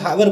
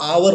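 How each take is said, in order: First: The word starts with an audible h sound. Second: The word starts with a vowel, no h. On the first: The speaker calls it wrong. "अपन हावर बोलते हैं इसको" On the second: The speaker calls it right. "ये आवर होता है ना, H silent रहता है"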